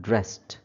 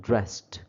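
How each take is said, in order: The two takes are said the same way.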